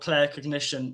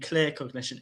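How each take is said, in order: First: The first word has the vowel of 'Claire'. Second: The first word has the vowel of 'clear'. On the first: The speaker calls it wrong. "oh, clair cognition" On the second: The speaker calls it right. "it should really be clear cognition"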